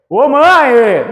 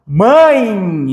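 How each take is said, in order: First: Mãe called out with a literal E, "mã-e"; exaggerated wrong mãe with a full E at the end; mispronounced mãe. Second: Mãe drawn out with a final I glide, "mãi"; demonstrated mãe as one syllable ending in I; correct mãe. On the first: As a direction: call out mãe, higher, sounding the final E as written. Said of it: "Então eu não falo mãe". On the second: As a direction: stretch mãe, letting the E sound as I. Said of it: "esse E tem som de I". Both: Shown as a demonstration.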